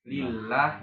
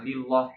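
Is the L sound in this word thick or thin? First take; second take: thin; thick. First: The L is light and thin. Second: The L is dark and thick. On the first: The speaker calls it right. "ketika dia kasroh lah lah ya lillah" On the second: The speaker calls it wrong. "itu bukan lillah ya"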